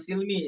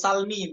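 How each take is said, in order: First: The first vowel is a close 'i' sound. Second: The first vowel is an open 'a' sound. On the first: This is the reading from another transmission. The speaker calls it wrong. "bukan silmi" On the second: This is the reading used in this recitation. The speaker calls it right. "Fathusin ya. Itu salmi"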